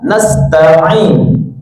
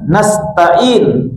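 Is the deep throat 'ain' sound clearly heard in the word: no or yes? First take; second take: yes; no. First: The 'ain sound is clearly pronounced. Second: The 'ain sound is not clearly pronounced. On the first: The word keeps its proper meaning. The speaker calls it right. "harusnya gimana? Nasta'in. Ain" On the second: The meaning of the word is ruined. The speaker calls it wrong. "nah itu ada itu rusak lagi artinya"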